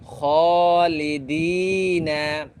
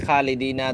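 First: খালিদিনা with the long vowel drawn out one alif; elongated madd. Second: খালিদিনা said short, vowel not lengthened; clipped wrong madd. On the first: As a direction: stretch খালিদিনা slowly. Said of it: "মদগুলা কীভাবে এক আলিফ লম্বা করে পড়তেছি". (খালিদিনা মদ টেনে লম্বা করে) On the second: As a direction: rush খালিদিনা without the madd. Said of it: "শুদ্ধভাবে পড়ে না, আদায় করে না". (খালিদিনা মদ ছাড়া ছোট করে) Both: Shown as a demonstration.

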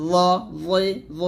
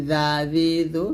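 First: Thick, rounded th-like z on "জ জি জ"; heavy "জ জি জ". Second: Light th-like z on each of "জা জি জো"; thin "জা জি জো". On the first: Teacher recapping the thick letter, heavy "জ জি জ". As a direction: make each of "জ জি জ" full and heavy. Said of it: "মোটা করতে হবে". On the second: Teacher recalling the thin letter for contrast, light "জা জি জো". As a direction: keep "জা জি জো" unrounded and thin. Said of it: "জালটা পাতলা করে উচ্চারণ করছি". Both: Shown as a demonstration.

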